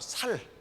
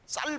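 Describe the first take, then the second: First: It starts with a plain, soft s sound. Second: It starts with a tense, hard s sound. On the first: The speaker calls it wrong. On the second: The speaker calls it right.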